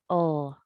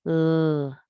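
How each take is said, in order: First: A vowel sound comes before the L. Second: The L is said alone with no vowel. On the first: The speaker calls it wrong. "Adding a vowel sound to the beginning of the L" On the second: The speaker calls it right. "continue with the initial sound instead of saying the rest"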